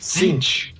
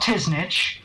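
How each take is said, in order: First: The name is said as one syllable. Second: The name is said as two syllables. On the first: The speaker calls it right. "It's Sinch" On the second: The speaker calls it wrong. "It's not Tisnich"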